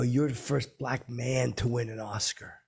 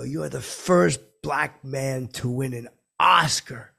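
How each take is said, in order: First: Said in the usual way. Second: Slow, louder, weight on "first" and "Oscar"; deliberate declaration, "Oscar" hit hard; emphatic repeat. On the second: Retold or imitated. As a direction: proclaim it, punching "first" and "Oscar".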